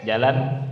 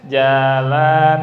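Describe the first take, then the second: First: Jalan said short and quick; brisk short Jalan, no lengthening; all short. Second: Jalan with both vowels drawn out slowly; long loud Jalan, nothing cut short; both sounds long. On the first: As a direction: clip both syllables of Jalan. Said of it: "Atau pendek". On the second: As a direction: stretch every syllable of Jalan. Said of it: "Atau dua-duanya panjang". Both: Shown as a demonstration.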